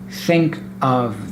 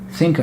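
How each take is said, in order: First: Of is said with its V sound. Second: Of loses its V sound and links on.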